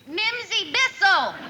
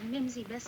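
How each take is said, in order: First: The name is shouted very loudly. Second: The name is said softly and hesitantly. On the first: "What are you shouting about?" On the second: "Would you mind speaking up"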